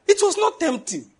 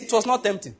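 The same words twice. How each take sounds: First: "It was not tempting" drawn out at a much higher pitch; high, slow insistence on "not tempting"; emphatic denial. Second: Said in the usual way. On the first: Real, not acted. Repeats the line for emphasis.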